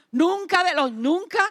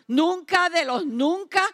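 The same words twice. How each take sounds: The two takes are said the same way.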